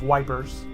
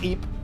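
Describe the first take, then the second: First: The name starts with a 'w' sound. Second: The name starts without a 'w' sound. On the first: It is how soldiers who could not pronounce it said it. The speaker calls it wrong. "The British soldiers called it the Battle of Wipers" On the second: It is the proper pronunciation of the place name. The speaker calls it right. "but it's it's pronounced Ypres"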